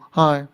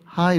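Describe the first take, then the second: First: The greeting is said forcefully and strongly. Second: The greeting is said softly and gently. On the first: The speaker projects confidence as needed in New York. The speaker calls it right. "세게 말해야 되죠" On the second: The speaker greets in the friendly way usual in Korea. The speaker calls it wrong. "한국처럼 하이 이렇게 말하면 안 되고"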